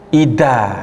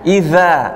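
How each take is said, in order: First: The middle consonant is a d sound. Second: The middle consonant is a soft th sound. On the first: The speaker calls it wrong. "bisa tercampur dengan makhraj huruf dal" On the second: The speaker calls it right. "Ujung lidah dengan gigi seri"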